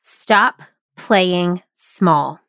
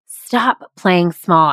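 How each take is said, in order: First: Slow, weighty motto; slow emphatic title. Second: Slow motto. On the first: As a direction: stop playing small said very slowly, each word apart. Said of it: "Number seven, stop playing small". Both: Shown as a demonstration.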